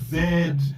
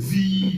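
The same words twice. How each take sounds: First: The letter is said the British way. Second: The letter is said the American way. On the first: This is the form learned in the British system. "not Z" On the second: This is the form used in America. "you know Z"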